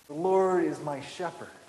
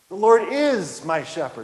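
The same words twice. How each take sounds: First: The stress is on the word shepherd. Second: The stress is on the word is.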